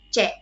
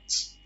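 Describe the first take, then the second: First: The letter is read as the sound 'ce'. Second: The letter is not read as 'ce'. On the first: The speaker calls it right. "tapi C" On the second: The speaker calls it wrong. "bukan bukan C, bukan kayak gitu ya"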